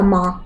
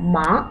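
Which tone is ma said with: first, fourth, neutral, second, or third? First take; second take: neutral; second. First: It is short and light, without tone. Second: The pitch rises from middle to high. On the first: "нулевой тон это когда вообще без тона" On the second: "Вторым тоном «ма» – это «конопля»"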